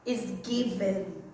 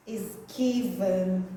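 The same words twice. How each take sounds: The two takes are said the same way.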